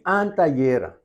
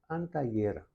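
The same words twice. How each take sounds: First: Antallera said high with a marked accent; antallera, higher and more forceful, as the take to be corrected; stressed syllable raised. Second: Antallera softly, all syllables on one level; antallera, quieter, evenly weighted correction; even stress. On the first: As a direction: lift antallera in pitch, making one syllable stand out. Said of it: "No, antallera". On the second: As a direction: say antallera with no syllable above the others. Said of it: "Arriba, mes nivel". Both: Shown as a demonstration.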